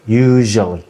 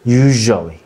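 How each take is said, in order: Both takes have the same delivery.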